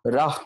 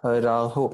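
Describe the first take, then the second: First: राह ending cleanly on h, no vowel after it; राह with the vowel dropped; correct reading rah. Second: राहो with a final o sound, marked as wrong; राहो read with the final o; wrong reading raho. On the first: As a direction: say राह short, with no o and no a at the end. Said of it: "राहा भी नहीं कहना". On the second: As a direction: say राहो ending in a clear o vowel, the incorrect way. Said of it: "राहो नहीं पढ़ेंगे". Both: Shown as a demonstration.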